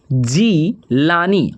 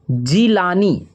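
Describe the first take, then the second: First: Jilani stretched slow, syllable by syllable; slow dictation of Jilani; drawn out slowly. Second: Said in the usual way. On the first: Shown as a demonstration. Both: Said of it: "और जीलानी का हो".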